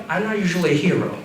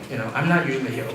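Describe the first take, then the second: First: Said in the usual way. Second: Mumbled aside. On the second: Retold or imitated.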